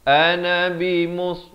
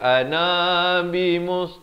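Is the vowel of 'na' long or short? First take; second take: short; long. First: The vowel of na is kept short. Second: The vowel of na is drawn out long. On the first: The speaker calls it right. "ini jangan panjang" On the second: The speaker calls it wrong. "Jangan baca ana bimus. Tak betul"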